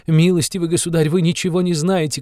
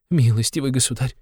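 First: Higher, louder repeat of the appeal; shouting. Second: High, pleading address; crying out. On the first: (повтор выше и громче, на крик) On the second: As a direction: begin the appeal raised. (высокое умоляющее обращение) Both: A narrator's reading. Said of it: "кричала Катерина Ивановна".

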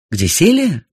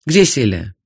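First: Louder, higher repeated question; insistent repeat. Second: Said in the usual way. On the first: Acted. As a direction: demand it again firmly. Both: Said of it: "повторила я".

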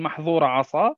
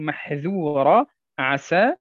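First: محظورة عصا with emphatic ظ and ص; heavy emphatic letters in محظورة عصا; wrong pronunciation. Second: محذورة عسى with light open ذ and س; correct pronunciation. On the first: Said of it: "لا نقول". (نطق خاطئ بالظاء والصاد المفخمتين) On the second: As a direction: keep ذ and س thin in محذورة عسى. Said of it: "وإنما نقول". (نطق صحيح بالذال والسين المرققتين) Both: Shown as a demonstration.

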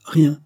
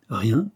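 First: RIEN as a high, loud, closed statement; firm answer. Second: RIEN turned into a rising question; sardonic echo. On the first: Young woman answering the judge, firm answer. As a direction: say RIEN louder and higher, as an answer. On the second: Judge echoing the woman's answer, sardonic. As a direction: echo RIEN back sardonically, lifting the end. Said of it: "répéta Jiménez, sardonique". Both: A narrator's reading.

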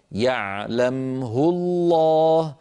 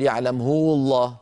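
First: يعلمه الله very slow, short ه with no added vowel; correct recitation. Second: يعلمه with a long vowel after the ه; wrong reading. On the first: Teacher chanting the correct يعلمه الله. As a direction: chant يعلمه without lengthening the ه. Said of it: "فلا صلة فيها". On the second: Teacher giving the wrong reading of يعلمه الله. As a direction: say يعلمه stretching the ه into هو. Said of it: "لا نقول". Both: Shown as a demonstration.

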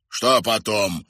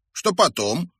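First: Bewildered echo with falling tune; baffled, slightly raised repeat; puzzled. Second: High, inquiring voice; light, raised boyish query; curious question. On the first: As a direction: repeat it, not understanding. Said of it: "повторил Кривой Глаз в недоумении". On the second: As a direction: ask with keen interest. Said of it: "поинтересовался мальчик". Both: A narrator's reading.

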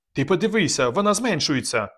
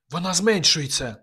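First: Higher, urgent alarm on «вона»; alarmed pointing out. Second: Higher, scared half-whisper on «зменшується»; frightened whisper. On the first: Kazik alarmed, pointing at balloon. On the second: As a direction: breathe it in fear. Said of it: "прошепотіла Мар'яна злякано". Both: A narrator's reading.

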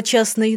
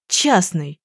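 First: Said in the usual way. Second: Muffled gasp. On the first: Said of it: "Смысл слова". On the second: A narrator's reading. Young man realising she is a private detective, a muffled gasp. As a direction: breathe out Частный as a dull, muffled gasp. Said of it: "Пронин тем временем глухо ахнул".

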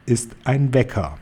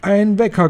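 First: Understated triumph, at usual pitch; measured reveal with a touch of triumph; triumphant. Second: High-pitched excited squeal; screeching. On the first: Head witch revealing her secret, understated triumph. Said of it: "Großmeisterhexe triumphierend". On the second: Witches hearing the secret, high excited screech. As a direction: squeal it in astonished delight, much higher. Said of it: "kreischten sie". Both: A narrator's reading.

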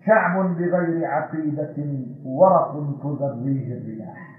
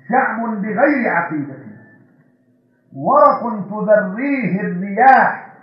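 First: Softer, slow first reading of the line; quiet verse. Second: Slow, weighty repeat with stress on بغير and ورق; emphatic verse. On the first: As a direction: say it low and slow before building. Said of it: "verse recited once, then repeated". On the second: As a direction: lean hard on بغير and stretch ورق slowly. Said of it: "same verse repeated with force". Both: Shown as a demonstration.

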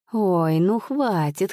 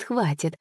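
First: Slow, rising plea to stop; slow protest. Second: Said in the usual way. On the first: A narrator's reading. Teller stops the laughter.

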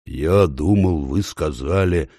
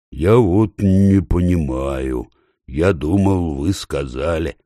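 First: Slow, halting bear voice; hesitant and slow, lost in thought; slow puzzled bear. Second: Slow, halting puzzled bear; slow and embarrassed. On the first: The bear tries again to ask the ape, slow and halting. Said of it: "начал медведь". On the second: The slow bear puzzles aloud before the crowd, slow and halting. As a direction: drag the words out, unsure. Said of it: "заговорил медведь медленно и смущенно". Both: A narrator's reading.

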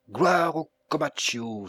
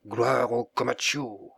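First: Loud, higher cry of glory; exclaiming. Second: Acclaim. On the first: Felipe at the door, cheering his master loudly. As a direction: hail the master to the sky. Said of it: "s'écria-t-il". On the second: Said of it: "acclamaient César et du même cri". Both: A narrator's reading.

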